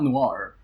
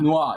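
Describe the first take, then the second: First: The final R sound is pronounced. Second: The final R sound is dropped. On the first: The speaker calls it wrong. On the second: The speaker calls it right.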